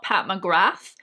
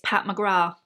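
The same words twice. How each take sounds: First: The final th sound is pronounced. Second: The final th sound is left silent. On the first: The speaker calls it wrong. "it's not Pat McGrath" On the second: The speaker calls it right. "the T H is silent. It's Pat McGrath"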